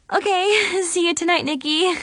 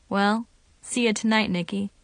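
First: High, giggly echo; giggling. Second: Said in the usual way. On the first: A narrator's reading. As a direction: giggle it back shyly. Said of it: "I giggled".

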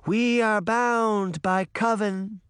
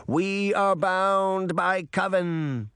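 First: Very slow, higher, louder chant; slow solemn echoed vow; echoed incantation. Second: Slow, chanted vow; slow chanted oath; incantation. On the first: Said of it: "Daphne said". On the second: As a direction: intone it like a spell. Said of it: "the two older witches said". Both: A narrator's reading.

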